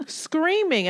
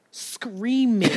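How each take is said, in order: First: Screaming said much higher, stretched out; emphatic repeat. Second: Said in the usual way. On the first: Retold or imitated. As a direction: lift Screaming high like the cat's cry.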